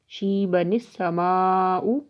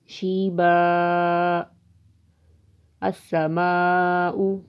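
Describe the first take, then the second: First: The two words are joined without a pause. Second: There is a pause after the first word.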